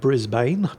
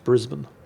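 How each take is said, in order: First: It is read out the way it is spelled. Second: It is said the way people actually say it. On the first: The speaker calls it wrong. "I know it's spelled Brisbane" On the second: The speaker calls it right. "but it's pronounced Brisbane"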